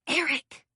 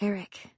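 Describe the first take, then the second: First: The name is whispered more loudly. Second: The name is whispered quietly.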